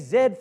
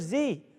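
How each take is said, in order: First: It is said the British way. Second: It is said the American way. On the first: "The English say"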